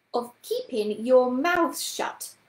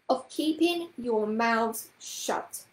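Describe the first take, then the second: First: Rapped, slow, loud, stern order. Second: Slow, measured, with less force; slow repetition. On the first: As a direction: rap it out firmly, word by word. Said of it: "she rapped out". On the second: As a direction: repeat it slowly and unpleasantly. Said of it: "repeated Miss Price slowly". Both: A narrator's reading.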